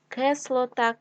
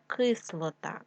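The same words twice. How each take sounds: First: Кислота said as Кеслота; е in first syllable. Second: Said in the usual way. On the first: Shown as a demonstration. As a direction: open e after К in Кислота. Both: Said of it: "кислий".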